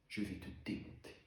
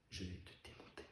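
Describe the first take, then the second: First: Quiet menace, softer than usual; hushed, controlled threat. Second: Very soft, lower menace; barely audible, dead-quiet warning; near-whispered threat. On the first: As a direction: threaten under your breath, held in. Acted threat to his father. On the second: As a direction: repeat the threat almost without voice. Threat repeated, far softer. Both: Acted.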